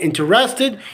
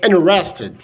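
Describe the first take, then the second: First: The T after the N is pronounced. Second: The T after the N is dropped. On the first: "instead of saying interested" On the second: "you can we can say interested"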